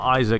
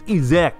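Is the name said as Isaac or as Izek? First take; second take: Isaac; Izek. First: The name is said like the English name Isaac. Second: The name is said as Izek. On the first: The speaker calls it wrong. "It's not Isaac" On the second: The speaker calls it right. "it's Izek"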